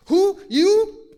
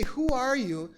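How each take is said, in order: First: "Who? You?" in two high, loud bursts; emphatic, forceful. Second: Said in the usual way. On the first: Shown as a demonstration. Boaz wants the point at once, "Who? You?" forcefully stressed. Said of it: "being emphatic means it's forceful". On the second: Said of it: "It doesn't say".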